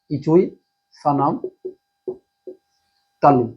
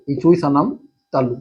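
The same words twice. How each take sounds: First: Slow, drawn-out chant of the rule; slow recital. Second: Said in the usual way. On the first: Shown as a demonstration. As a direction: say इचुई सानाम slowly, stressing इचुई. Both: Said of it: "कौन सा सूत्र है?".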